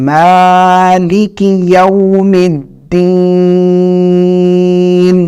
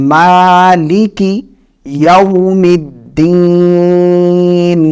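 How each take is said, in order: The two takes are said the same way.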